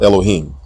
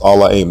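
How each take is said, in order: First: The word has a long O vowel. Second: The word has no long O vowel. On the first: The speaker calls it wrong. "not Elohim" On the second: The speaker calls it right. "pronounced Al-La'im"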